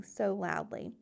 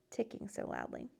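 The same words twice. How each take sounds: First: Said in the usual way. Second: "ticking so loudly" said much softer, fading; hushed repeat. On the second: A narrator's reading. Frog drifting off to sleep, "ticking so loudly" whispered softly. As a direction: let "ticking so loudly" drop to a hush.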